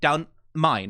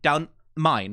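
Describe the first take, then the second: First: The word 'the' is reduced to a glottal stop. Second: The word 'the' is reduced to a glottal stop.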